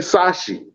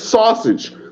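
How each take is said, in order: First: The word is said like 'sashi'. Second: The word is said as standard 'sausage'. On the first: The speaker calls it wrong. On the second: The speaker calls it right. "don't even know how to say sausage"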